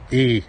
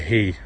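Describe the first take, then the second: First: "E" as he without its H; dropped H. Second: "he" with the H sounded; H pronounced. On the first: Stoke speaker demonstrating local speech, "E" with H dropped. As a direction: say "E", just the bare ee vowel. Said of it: "we don't say H's". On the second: Stoke speaker contrasting standard speech, "he" with H pronounced. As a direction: start "he" on an audible H. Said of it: "E instead of he". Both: Shown as a demonstration.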